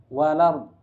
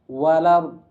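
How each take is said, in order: Both takes have the same delivery.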